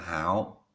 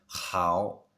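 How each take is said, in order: First: It starts with a plain, soft h sound. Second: It starts with a raspy sound between h and kh. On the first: This is the southern or learner pronunciation. "mình đọc là hảo thì lại đặt miền Nam" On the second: This is the standard northern Beijing pronunciation. "chuẩn miền Bắc ấy ... giữa hờ với khờ"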